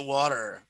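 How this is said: It is said with an American accent.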